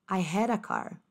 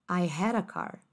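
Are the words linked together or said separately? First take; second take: linked; linked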